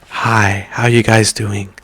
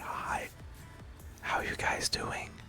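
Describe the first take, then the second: First: It is spoken in a normal, loud voice. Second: It is spoken in a soft whisper.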